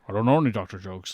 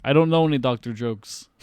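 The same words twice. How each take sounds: First: Lower, quick Scottish-accented impression; Sean Connery. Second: Lightly put-on Russian accent; mock Russian accent. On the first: Retelling Bond without the fake accent, mock Scottish voice. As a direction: say it like a Scottish screen spy. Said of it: "if Connery was doing this". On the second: Bond answers Doctor Jones's warning, light mock Russian accent. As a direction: imitate Bond faking Russian. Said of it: "puts on his Russian accent".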